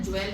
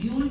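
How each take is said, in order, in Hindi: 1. यह शब्द 'jwel' जैसा सुनाई देता है, e स्वर के साथ। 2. यह शब्द 'jool' जैसा सुनाई देता है, oo स्वर के साथ। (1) "ज्वेल नहीं कहना है" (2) "इसको जूल प्रोनाउंस करना है"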